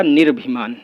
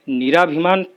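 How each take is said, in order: First: निर्भिमान as 'nir-bhi-maan', no long aa; corrected form. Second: निराभिमान with long aa, 'ni-raa-bhi-maan'; wrong form. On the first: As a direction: run r straight into bh in निर्भिमान. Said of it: "शुद्ध होगा". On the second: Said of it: "अशुद्ध है". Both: Shown as a demonstration.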